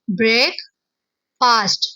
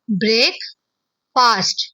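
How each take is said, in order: First: There is a short pause after break. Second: There is a short pause after break.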